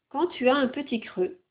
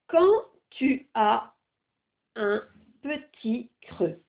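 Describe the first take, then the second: First: The phrase is read at normal speed. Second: The phrase is read slowly.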